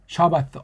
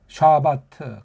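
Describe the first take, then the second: First: The word ends with a soft th sound. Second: The word ends with a hard t sound. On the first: "영어의 그 세타자 발음 나오는 거예요. th 사운드" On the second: "그냥 우리식으로 고추장 된장식으로 샤바트 이게 더 정확한 소리예요"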